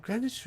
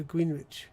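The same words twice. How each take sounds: First: "Greenwich" said as GREN-itch; GRENITCH pronunciation. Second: "Greenwich" said as GREEN-witch; GREEN-WITCH pronunciation. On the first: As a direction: say Greenwich with a silent w. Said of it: "is it Greenwich or Greenwich?". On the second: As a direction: say Greenwich as spelt, with the w. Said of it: "if Londoners would have pronounced it Greenwich". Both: Shown as a demonstration.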